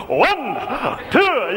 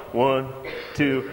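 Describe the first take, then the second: First: Eager count. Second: Low, lazy half-hearted counting; bored count. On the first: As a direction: count like the keenest kid in gym class. Eager Benji counting jumping jacks. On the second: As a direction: count like you can't be bothered. Kids doing lazy jumping jacks. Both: Retold or imitated.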